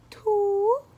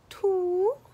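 First: It is said in a princess voice. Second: It is said in a princess voice.

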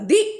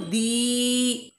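First: The vowel is cut short. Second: The vowel is drawn out long. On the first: The speaker calls it right. "छोटी आवाज़ में बोला" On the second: The speaker calls it wrong. "दी लंबी नहीं ना बोला"

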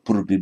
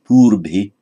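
First: The first vowel is kept short. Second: The first vowel is held long. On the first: The speaker calls it wrong. "not purbhi" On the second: The speaker calls it right. "but purbhi"

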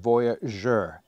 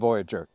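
First: The word is said with a French pronunciation. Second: The word is said with an English pronunciation. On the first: The speaker calls it right. "it's the Voyageur" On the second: The speaker calls it wrong. "It's not the Voyageur"

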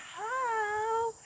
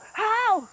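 First: The word is said softly and gently. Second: The word is said as a sharp bark. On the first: The speaker calls it wrong. "you're not going to be going ho" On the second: The speaker calls it right. "say ho in kind of a bark"

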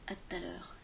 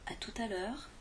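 First: Some syllables are dropped and run together. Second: Every syllable is pronounced in full. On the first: "prononcées quand elles sont vraiment raccourcies" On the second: "Au lieu de dire"

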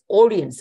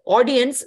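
First: The first vowel sounds like an O. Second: The first vowel sounds like an A. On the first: The speaker calls it wrong. "somebody pronounced this audience. It is not O" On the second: The speaker calls it right. "It is not O, it is A"

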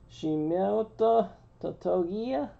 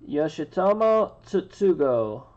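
First: The name sounds like Shimoto Totogiya. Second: The name sounds like Yoshitomo Tsutsugo. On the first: The speaker calls it wrong. "No. That's not how you say it" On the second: The speaker calls it right. "My best shot at it is"

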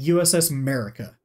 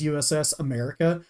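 First: The first syllable of America is dropped. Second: The word America is said in full.

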